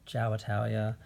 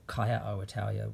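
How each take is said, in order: First: Ciao is said as one short syllable. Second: Ciao is drawn out into several syllables. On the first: The speaker calls it right. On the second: The speaker calls it wrong.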